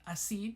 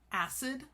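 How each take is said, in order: First: The word is said with French pronunciation. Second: The word is said with English pronunciation.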